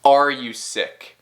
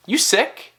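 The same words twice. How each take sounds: First: Said in the usual way. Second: "You sick" short, higher, rising on "sick"; clipped casual question, voice up on "sick"; informal question without "are". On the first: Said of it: "não some completamente". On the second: Shown as a demonstration. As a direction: toss out "You sick" with a quick lift. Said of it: "não some completamente como o".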